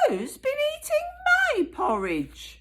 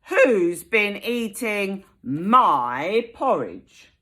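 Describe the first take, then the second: First: It is said in a medium-sized voice. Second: It is said in a big, loud voice.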